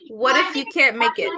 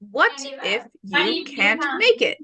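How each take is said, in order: First: The words run together, linked smoothly. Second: The words are said separately, one by one. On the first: The speaker calls it right. "Connect the words" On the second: The speaker calls it wrong. "instead of saying"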